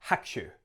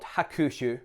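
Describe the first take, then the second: First: Hakushu said as HAK-shu, short and low; swallowed U. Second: Hakushu with a full stressed KOO, ha-KOO-shu; wrong pronunciation. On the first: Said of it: "the U of the ku gets a little bit swallowed up". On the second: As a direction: sound out the u in hakushu as a long oo. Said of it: "Not hakushu". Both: Shown as a demonstration.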